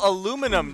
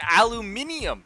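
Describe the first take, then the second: First: The word is said with four syllables. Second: The word is said with five syllables. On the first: "spell aluminum the same way" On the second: "There's an entire extra syllable at the end that doesn't exist"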